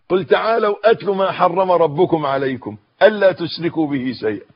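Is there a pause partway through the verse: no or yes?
no. The verse is read straight through without pausing. "كلنا بنقرأ"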